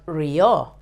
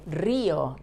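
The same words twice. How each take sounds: First: RÍO with the stress moved to the final O, ri-O; wrongly stressed O. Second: RÍO stressed on the first syllable, RÍ-o. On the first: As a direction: demonstrate RÍO mis-stressed on its last vowel. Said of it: "not río". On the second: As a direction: put the weight on the Í of RÍO. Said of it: "Why do we stress the letter I?". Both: Shown as a demonstration.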